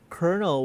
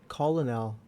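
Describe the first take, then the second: First: The word sounds like 'kernel', with an r sound. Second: The word is said as spelled, 'col-o-nel'. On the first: This is how others say it. "why do they say colonel" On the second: This is how the spelling suggests it. "when it's actually colonel"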